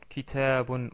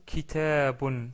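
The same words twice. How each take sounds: Both takes have the same delivery.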